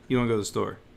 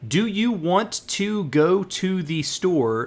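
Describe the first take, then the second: First: The first words are slurred and run together. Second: Each word is pronounced fully and separately.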